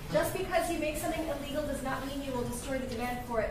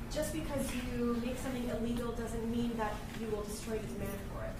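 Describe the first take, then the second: First: It is said at a louder volume. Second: It is said at a quieter, normal volume.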